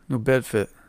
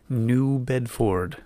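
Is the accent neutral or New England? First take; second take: New England; neutral. First: It is said in a New England accent. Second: It is said in a neutral announcer accent. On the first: The speaker calls it wrong. "if I say it with my New England accent" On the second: The speaker calls it right. "You say it like I'm a radio announcer"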